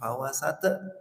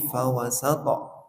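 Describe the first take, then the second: First: The t is closed without any echoing bounce. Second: The t is released with a short echoing bounce. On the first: The speaker calls it wrong. "bukan fawasata" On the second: The speaker calls it right. "Toknya pantulannya"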